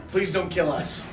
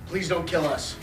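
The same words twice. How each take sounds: The two takes are said the same way.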